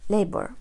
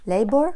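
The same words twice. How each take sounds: First: "labor" closed with a falling end; falling tune. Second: "Labor" louder, rising at the end; rising tune. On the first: Teacher completing a spelling example for learners, "labor" with falling tune. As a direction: let "labor" drop, second of two. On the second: Teacher giving learners a spelling example, "Labor" with rising tune. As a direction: lift the end of "Labor", first of two. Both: Shown as a demonstration. Reading out two spelling variants.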